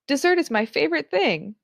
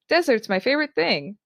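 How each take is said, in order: First: The stress is on the second syllable. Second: The stress is on the first syllable. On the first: The favorite thing is a sweet treat. "a tasty treat" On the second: The favorite thing is a barren landscape. "if you put the stress in a different part of the word"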